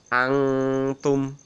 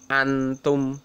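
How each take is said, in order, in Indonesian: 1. Bunyi N samar dan sengau. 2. Bunyi N diucapkan penuh dan jelas. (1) "Tapi samar-samar" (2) "Tidak boleh dibaca antum"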